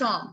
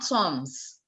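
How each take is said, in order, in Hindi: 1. अंतिम s ध्वनि मौन है। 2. अंतिम s ध्वनि का उच्चारण होता है। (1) "it's som" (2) "not soms"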